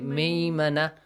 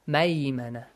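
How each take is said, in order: First: The first vowel is a short 'i' sound. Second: The first vowel is an 'ay' glide sound. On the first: The speaker calls it wrong. "Don't say ميمنة. That becomes wrong" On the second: The speaker calls it right. "It does not have kasra. That's ميمنة"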